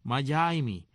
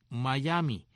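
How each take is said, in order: First: "Miami" as mah-YAI-mee; spelled-out pronunciation. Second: "Miami" as mah-YAH-mee. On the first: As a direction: glide "Miami" through "yai" before "mee". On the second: Host spells out the tribe's name, "Miami" as mah-YAH-mee. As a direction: say "Miami" with a plain "ah" before "mee". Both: Shown as a demonstration. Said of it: "Miami, que se escribe M A Y A I".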